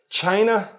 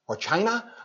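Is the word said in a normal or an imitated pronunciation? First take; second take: normal; imitated. First: The word is said in a normal pronunciation. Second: The word is said in an imitated pronunciation.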